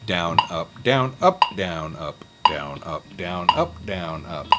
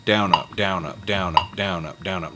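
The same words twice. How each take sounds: First: DOWN, UP spaced out in triplet groups, stress alternating between DOWN and UP; switching emphasis. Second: Quick paired DOWN, UP with the weight on DOWN; emphasis on DOWN. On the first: Teacher showing triplet picking, emphasis switching between DOWN and UP. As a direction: punch every third word of DOWN, UP, DOWN. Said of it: "the emphasis is switching". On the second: Teacher showing the usual picking feel, DOWN stressed in pairs. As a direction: count DOWN, UP in even twos, stressing each DOWN. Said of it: "You kinda feel an emphasis". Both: Shown as a demonstration.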